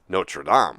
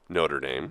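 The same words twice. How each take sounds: First: It is pronounced the French way. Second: It is pronounced the anglicized American way. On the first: It names the place in France. "They pronounce the place Notre Dame" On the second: It names the American school. "Americans s- pronounce the school Notre Dame"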